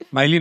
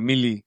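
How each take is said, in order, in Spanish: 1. La primera vocal suena como la vocal de 'mile'. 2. La primera vocal suena como la vocal de 'mill'. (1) "Miley no"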